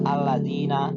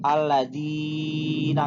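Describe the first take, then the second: First: The long vowel is held for two beats. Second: The long vowel is stretched out too far. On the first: The speaker calls it right. "harus allazi, allazina" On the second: The speaker calls it wrong. "nggak boleh panjang-panjang, nggak boleh allazina"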